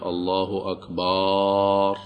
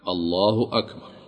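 First: The vowel after the b is drawn out long. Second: The vowel after the b is short. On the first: The speaker calls it wrong. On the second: The speaker calls it right.

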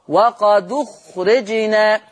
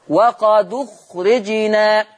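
No difference in how they are said.

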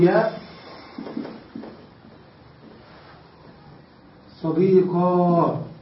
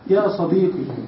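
First: The word ends in a long aa sound. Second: The word ends in a ya sound. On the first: "أن نبدل هذه الياء ألفا والكسرة فتحة" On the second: "تنطق الياء بالفتحة"

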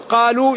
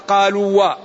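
First: The word ends cleanly without an extra syllable. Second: The word ends with an extra 'wa' syllable. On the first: The speaker calls it right. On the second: The speaker calls it wrong.

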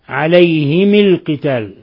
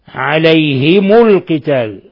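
First: Both the h and the m take an i vowel. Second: The h takes i and the m takes u. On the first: "بكسر الهاء والميم حالة الوصل" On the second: "بكسر الهاء وضم الميم"

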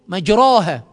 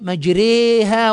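First: The vowel after r is an open a sound. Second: The vowel after r leans toward an e sound. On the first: "بالألف" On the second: "تنطق بالياء"

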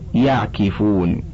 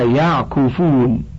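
First: The vowel after the k is i. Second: The vowel after the k is u. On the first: "أم مكسورها" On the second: "مضموم العين في المضارع"

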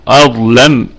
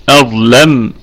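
No difference in how they are said.

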